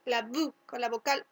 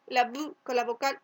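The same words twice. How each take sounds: The two takes are said the same way.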